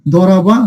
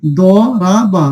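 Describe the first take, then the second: First: Quick first try. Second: দরাবা stretched out very slowly, each syllable long; slow drawn-out reading. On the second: Teacher slowly sounds out দরাবা for students. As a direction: draw out দরাবা syllable by syllable, falling at the end. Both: Shown as a demonstration. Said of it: "sorry, এই শব্দটা কি হবে?".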